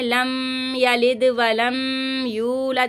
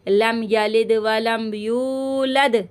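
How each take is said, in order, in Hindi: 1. m की आवाज़ को लंबा खींचा जाता है। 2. m की आवाज़ को छोटा रखा जाता है, खींचा नहीं जाता। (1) "इस तरह से खींच खींच के पढ़ती हैं, तो ये बहुत गलत है" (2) "मीम की आवाज़ को बिल्कुल भी नहीं बढ़ाइएगा"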